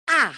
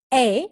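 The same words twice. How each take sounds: First: "A" said short and open, as in cat; A corta inglesa. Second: "A" said as the English letter name, ay; A larga inglesa. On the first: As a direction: say "A" like the vowel in cat. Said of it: "entonces, o puede ser". ("A" abierta, como en cat) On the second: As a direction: say "A" like the vowel in day. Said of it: "La letra A en inglés puede ser". ("A" pronunciada ei, como en day) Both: Shown as a demonstration.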